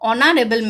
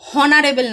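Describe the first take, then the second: First: The word begins with a vowel sound. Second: The word begins with an h sound. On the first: The speaker calls it right. "অ দিয়ে আসছে উচ্চারণটা" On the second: The speaker calls it wrong. "হনারেবল না কিন্তু"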